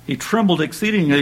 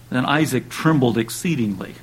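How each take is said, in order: First: Raised and weighted "He trembled exceedingly"; emphatic repeat. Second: Said in the usual way. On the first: Acted. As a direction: lean on "trembled exceedingly" to drive it home.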